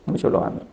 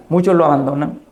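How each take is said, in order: First: Whispered echo. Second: Said in the usual way. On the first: Real, not acted. Preacher echoing her point to listeners, in a whisper. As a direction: repeat it in a hushed whisper.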